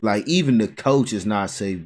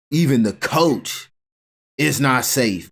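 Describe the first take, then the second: First: Said in the usual way. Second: Even and coach slowed and stressed. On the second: Real, not acted. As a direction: spell out even the coach is not safe.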